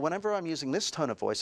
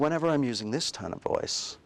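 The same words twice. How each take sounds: First: It is said in an ordinary, alert speaking voice. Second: It is said in a soft, hypnotic speaking voice. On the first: The words are addressed to the conscious mind. "I'm talking to your conscious mind" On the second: The words are addressed to the unconscious mind. "I'm talking to your unconscious"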